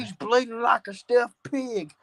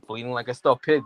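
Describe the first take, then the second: First: It is said imitating J R's voice. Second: It is said in his normal voice.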